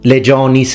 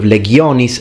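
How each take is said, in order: First: It uses the ecclesiastical pronunciation of the word. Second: It uses the classical pronunciation of the word. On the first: The speaker calls it wrong. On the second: The speaker calls it right.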